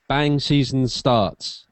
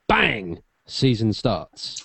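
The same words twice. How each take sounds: First: Bang runs straight into the rest of the phrase. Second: Bang is exclaimed, then a pause follows.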